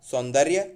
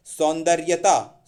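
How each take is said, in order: First: सौंदर्य without TAA, loud; correct form सौंदर्य. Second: सौंदर्यता with TAA added, slow and loud; wrong form सौंदर्यता. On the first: Teacher corrects सौंदर्यता, shorter form. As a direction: say सौंदर्य, saun-darya, and stop. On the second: Teacher shows a common error, slow mistaken form. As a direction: say सौंदर्यता slowly, ending in -taa. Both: Shown as a demonstration. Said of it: "नहीं".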